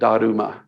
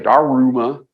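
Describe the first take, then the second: First: The r is a quick tongue tap. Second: The r is a full English r sound. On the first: The speaker calls it right. "kind of a tap on the front of your mouth. So Daruma is the way you say it" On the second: The speaker calls it wrong. "some of you will say Daruma"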